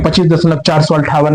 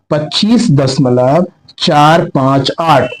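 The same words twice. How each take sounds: First: "चार सौ अट्ठावन" read as one whole number; wrong way, as a number. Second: Slow, each digit read separately after the decimal. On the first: Teacher showing students the wrong reading, whole number. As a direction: say "चार सौ अट्ठावन" as four hundred fifty-eight, the wrong reading. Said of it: "नहीं पढ़ेंगे". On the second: Teacher reading the right way for students, slow separate digits. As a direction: read "चार पाँच आठ" as single digits, slowly. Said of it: "ना कि इसको ये नहीं पढ़ेंगे". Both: Shown as a demonstration.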